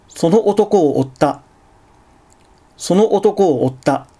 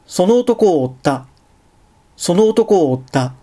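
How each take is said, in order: First: 'その男を追った' with catches before '男' and '追った'; two glottal stops. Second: 'その男を追った' with vowels of 'を追った' run together; no glottal stop. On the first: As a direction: break before the vowels starting '男' and '追った'. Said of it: "正門閉鎖を二回入れると". (「男」「追った」の前に声門閉鎖を入れて) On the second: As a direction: link 'を追った' smoothly, no throat catch. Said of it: "正門閉鎖なしで読むと". (「その男を追った」を声門閉鎖なしでつなげて) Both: Shown as a demonstration.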